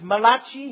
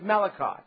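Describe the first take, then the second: First: The name is said with an Italian pronunciation. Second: The name is said with an English pronunciation. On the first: "If you're an Italian here this morning, you could pronounce it as" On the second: "but otherwise we can just go with"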